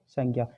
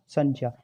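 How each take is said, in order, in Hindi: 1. बीच वाला संयुक्त अक्षर रोज़मर्रा के तरीके से बोला जाता है। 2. बीच वाला संयुक्त अक्षर 'jya' की तरह बोला जाता है। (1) "इसी वजह से हम बोलते हैं इसको" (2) "ये जो है वास्तविक उच्चारण है इसका"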